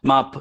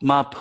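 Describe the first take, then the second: No difference in how they are said.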